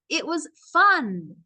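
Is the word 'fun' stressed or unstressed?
stressed. The last word 'fun' is pushed out strongly.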